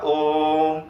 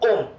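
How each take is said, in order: First: The vowel is drawn out for a long time. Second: The vowel is said quickly and briefly. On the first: The speaker calls it right. "ज्यादा से आपको उच्चारित करना पड़ेगा" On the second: The speaker calls it wrong. "ऐसे तो करते नहीं ओम"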